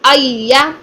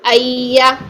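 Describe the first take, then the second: First: The doubled sound is loud and quick. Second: The doubled sound is soft and drawn out. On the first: The speaker calls it right. "हमने आवाज़ को थोड़ा सा देकर ऊपर बुलंद करना है।" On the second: The speaker calls it wrong. "अय्या नहीं करना"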